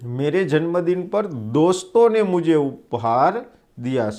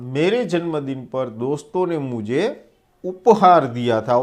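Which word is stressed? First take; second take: दोस्तों; उपहार. First: The stress is on दोस्तों. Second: The stress is on उपहार.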